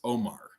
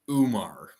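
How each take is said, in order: First: The name begins with an 'oh' vowel. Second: The name begins with an 'oo' vowel. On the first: The speaker calls it right. "but it's Omar is how it's pronounced" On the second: The speaker calls it wrong. "They're they're calling him Umar because it's O U M A R"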